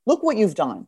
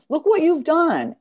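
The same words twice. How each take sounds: First: Said in the usual way. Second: "what" hit high and slow in "Look what you've done"; proud, slow stress on "what"; emphatic praise. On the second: Real, not acted. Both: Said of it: "repeated for emphasis".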